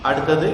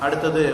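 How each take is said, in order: No difference in how they are said.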